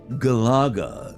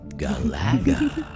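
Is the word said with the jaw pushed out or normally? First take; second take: jaw out; normal. First: It is said with the jaw pushed out. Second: It is said in a normal voice.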